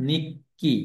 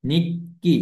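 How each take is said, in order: First: নিক্কি drawn out slowly with a doubled ক্ক; slow demo pronunciation. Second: নিক্কি said at normal speed with a rising end; quick demo pronunciation. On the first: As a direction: stretch নিক্কি and hold the double k. (নিক্কি ধীরে টেনে, দ্বিত্ব ক স্পষ্ট করে) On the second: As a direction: say নিক্কি once more, lightly rising. (নিক্কি স্বাভাবিক গতিতে, শেষে একটু উঠিয়ে) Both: Shown as a demonstration. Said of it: "অর্থাৎ নিক্কি".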